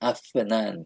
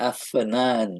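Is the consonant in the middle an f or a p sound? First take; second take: f; f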